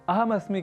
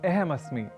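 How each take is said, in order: First: The first vowel is an 'a' sound. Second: The first vowel is an 'e' sound. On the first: The speaker calls it right. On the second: The speaker calls it wrong.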